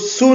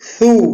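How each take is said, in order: First: It starts with a plain s sound. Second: It starts with a th sound, tongue out. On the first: The speaker calls it wrong. "इसको सू न पढ़िएगा" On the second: The speaker calls it right. "जुबान का अगला हिस्सा बाहर निकाल कर पढ़िए"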